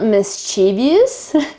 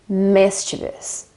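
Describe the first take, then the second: First: The stress falls on a later syllable. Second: The stress is on the first syllable. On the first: The speaker calls it wrong. "It's not mischievous, as I think most Italians say" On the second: The speaker calls it right. "the accent is on the first I sound"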